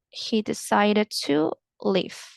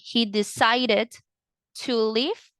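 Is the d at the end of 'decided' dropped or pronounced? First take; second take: dropped; pronounced. First: The final d is dropped and words run together. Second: The final d of decided is clearly pronounced. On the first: The speaker calls it right. "you're going to combine it like this, okay? ... So you make it faster" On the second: The speaker calls it wrong. "instead of saying he decided, and you pronounce the D"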